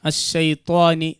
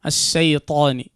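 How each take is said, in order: First: The t sound has a w-like lip rounding. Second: The t sound has no lip rounding. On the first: The speaker calls it wrong. "അങ്ങനെ ആവരുത്" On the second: The speaker calls it right. "അങ്ങനെ ആവാൻ ശ്രദ്ധിക്കുക"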